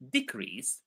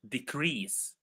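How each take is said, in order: First: The stress is on the first syllable. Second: The stress is on the second syllable. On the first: It is used as a noun. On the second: It is used as a verb.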